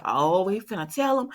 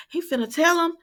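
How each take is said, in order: First: Said in the usual way. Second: "He finna tell him" jumps much higher and louder; excited squeal. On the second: Retold or imitated. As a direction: squeal it as if the big secret is about to come out. Own reaction, said twice.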